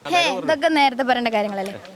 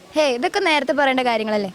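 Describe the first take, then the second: First: The line is broken up by repeated pauses. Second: The line flows without breaks between words.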